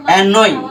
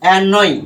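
The two takes are said the same way.

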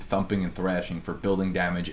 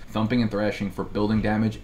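First: Said in the usual way. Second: "Thumping" and "thrashing" hit a bit harder, mock emphatic; mock emphatic repeat. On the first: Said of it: "and I repeat, I cannot say this with enough emphasis". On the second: Reading out the landlord's text to friends, hammed-up emphasis. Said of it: "I cannot say this with enough emphasis".

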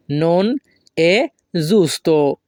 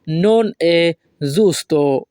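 First: "non", "è", "giusto" each set apart by pauses; word by word. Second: Said in the usual way. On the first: Shown as a demonstration. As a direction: say "non è giusto" one word at a time, pausing after "non" and "è". Teacher repeats it word by word.

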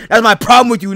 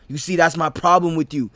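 First: Escalating anger. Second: Said in the usual way. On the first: Acted. Argument escalates.

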